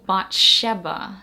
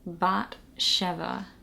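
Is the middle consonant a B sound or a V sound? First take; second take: B sound; V sound. First: The middle consonant is a B sound. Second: The middle consonant is a V sound.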